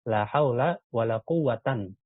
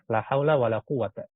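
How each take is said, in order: First: The last word ends in -an. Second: The last word ends in a short -a. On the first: "Kita baca dia nasab" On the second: "kita baca dia fathah"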